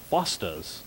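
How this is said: It is said in an Australian accent. "with a crazy, well, actually a poor Australian accent"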